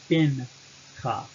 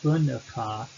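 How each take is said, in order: First: The first vowel is a clear 'i' sound. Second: The first vowel is a brief murmur. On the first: The speaker calls it right. "you get Binka" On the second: The speaker calls it wrong. "it's not B'nka"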